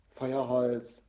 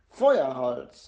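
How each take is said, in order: First: Mildly impatient mother; curt reply from an impatient mum. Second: Loud, angry burst; outraged child's outburst; furious. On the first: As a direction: toss it out with a touch of impatience. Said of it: "sagt Mama ungeduldig". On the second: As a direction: throw the word out in indignant fury. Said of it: "sagt Jana wütend". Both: A narrator's reading.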